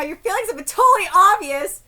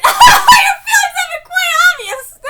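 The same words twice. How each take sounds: First: Said in the usual way. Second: High, loud laughing squeal; laughing while reading. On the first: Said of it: "let me read this again". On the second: Real, not acted. Fan failing to read the line straight, laughing. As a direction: crack up mid-line, pitched way up. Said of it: "Sorry, let me read this again".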